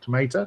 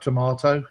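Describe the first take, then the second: First: The word is said with an American accent. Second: The word is said with a British accent.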